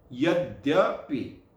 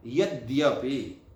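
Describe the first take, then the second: First: "यद्यपि" drawn out slowly with a held dd; slow demo yadyapi. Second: "यद्यपि" said slowly, half d gliding into य; slow careful yadyapi. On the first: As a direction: stretch "यद्यपि", leaning on the doubled d. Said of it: "यह इसका उच्चारण है". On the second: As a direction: sound out "यद्यपि" syllable by syllable, slowly. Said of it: "लोग नहीं समझ पाते हैं कि ये क्या लिखा है". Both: Shown as a demonstration.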